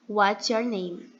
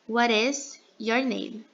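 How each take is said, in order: First: "What is" is contracted to one short syllable. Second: "What is" is said in full, linked together. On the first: "A gente tem a forma contraída" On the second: "quando a gente vai pronunciar, vai ter essa junção de what is your name"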